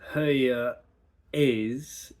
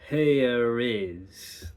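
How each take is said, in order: First: The words are separated with no R sound. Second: An R sound links the two words smoothly. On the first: "Instead of here is" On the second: "can add that little bit of R in there so it's not that abrupt stop"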